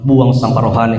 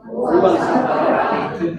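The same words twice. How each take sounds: First: Said in the usual way. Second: Slow laughing repeat of the phrase. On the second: Real, not acted. (mengucapkan sambil tertawa pelan) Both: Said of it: "Katakan kiri kananmu".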